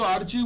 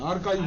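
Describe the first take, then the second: First: The middle consonant is a 'ch' sound. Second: The middle consonant is a 'k' sound. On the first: The speaker calls it wrong. "এটা কিন্তু আর্চিভ উচ্চারণ হবে না" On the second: The speaker calls it right. "আর্কাইভ হবে"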